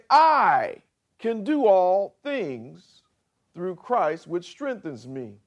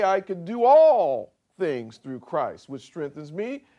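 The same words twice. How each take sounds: First: I stretched and lifted, slow; slow reading with I stressed. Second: All punched and falling, slowish; all things weighted, the rest easy; stress on all. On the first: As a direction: lean on the word I. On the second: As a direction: hit the word all. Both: Shown as a demonstration. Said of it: "You could say".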